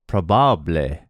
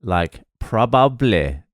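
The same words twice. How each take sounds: First: "probable" as pro-BA-ble, open A, final E voiced; Spanish stress. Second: Said in the usual way. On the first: Shown as a demonstration. Comedian demoing Spanish version, pro-BA-ble. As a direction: stress the second last syllable of "probable". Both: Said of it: "emphasize the second last syllable".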